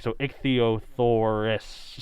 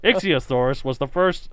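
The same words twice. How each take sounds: First: "ichthyosaurus" spelled out very slowly, every syllable clear; careful pronunciation. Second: "Ichthyosaurus" slurred, as "ick-see-uh-thaurs"; mispronounced. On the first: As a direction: say "ichthyosaurus" slowly, stressing the final -us. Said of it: "make sure that last is actually correct". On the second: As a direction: rush "Ichthyosaurus" and lisp the middle. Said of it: "I didn't even say it right there". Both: Shown as a demonstration.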